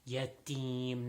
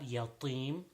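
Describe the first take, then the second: First: The t sound is light and unemphatic. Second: The t sound is heavy and emphatic. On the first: The speaker calls it right. "it is ta" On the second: The speaker calls it wrong.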